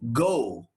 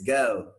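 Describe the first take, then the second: First: The vowel is a single pure long O. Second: The vowel glides from a neutral sound toward U. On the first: The speaker calls it wrong. "if you think this guy is go, you're wrong" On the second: The speaker calls it right. "this is the right pronunciation"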